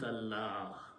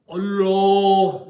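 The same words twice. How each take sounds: First: The L sounds light and thin, very smooth. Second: The L sounds heavy, with a full deep mouth. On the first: "then it should be very smooth" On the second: "should be pronounced with a big full mouth"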